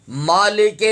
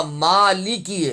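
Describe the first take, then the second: First: مالک ending in open "e" sounds, "maa-lay-kay"; wrong vowel in Maliki. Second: مالکی slow, long "maa", then "li-ki"; correct Maliki. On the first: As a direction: misread مالک with "ay" for "ee". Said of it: "مالک نہیں پڑھنا". (مالک کو "مالے کے" پڑھنا) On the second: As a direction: draw out the first vowel of مالکی, crisp "i" endings. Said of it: "یہ مالکی ہے". (مالکی، لام اور کاف پر زیر) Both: Shown as a demonstration.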